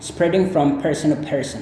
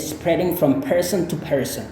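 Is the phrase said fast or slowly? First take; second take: fast; slowly. First: It is said fast with the t sounds dropped. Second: It is said slowly with every sound clear. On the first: "kalau ngomongnya cepat, ini T-nya bisa jadi kayak mati ya" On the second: "kalau Anda mau slow"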